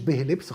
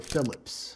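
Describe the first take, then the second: First: The name starts with a b sound. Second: The name starts with an f sound. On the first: The speaker calls it wrong. "هو مش بهلبس خالص" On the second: The speaker calls it right. "هو فيليبس"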